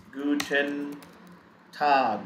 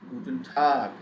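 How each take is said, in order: First: Guten held long, pause, then Tag; word-by-word pronunciation. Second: Said in the usual way. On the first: Shown as a demonstration. Teacher showing learners how to pronounce it, slow separate words. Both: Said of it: "How do we pronounce it?".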